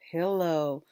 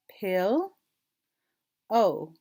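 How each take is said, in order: First: Said in the usual way. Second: PILL rising, long pause, loud falling OH; two separate parts, PILL and OH; split into syllables. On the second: Shown as a demonstration. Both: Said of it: "we're gonna blend 'em".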